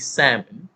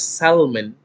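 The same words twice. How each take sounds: First: The L sound is silent in the word. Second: The L sound is pronounced in the word. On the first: The speaker calls it right. "it is actually salmon, the silent L" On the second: The speaker calls it wrong. "still pronouncing it as salmon"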